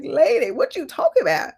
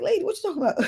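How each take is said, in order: First: Laughing incredulity. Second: Incredulous. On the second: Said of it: "I'm looking at her like". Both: Retold or imitated.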